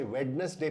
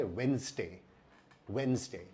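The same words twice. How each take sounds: First: वेडनेसडे said wed-nes-day, every letter spoken; वेडनेसडे with the d sounded; wrong Indian way. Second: वेडनेसडे said wenz-day, d silent; वेडनेसडे as wenz-day, two syllables; correct pronunciation. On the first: Scene: teacher showing the common Indian error, demo. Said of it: "अगर आपने ... वेडनेसडे पढ़ा ... तो ये गलत है". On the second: Scene: teacher giving the right form twice, careful. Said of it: "डी silent होता है ... सही उच्चारण है". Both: Shown as a demonstration.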